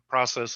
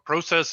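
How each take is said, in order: First: Process is said the American way. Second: Process is said the Canadian way.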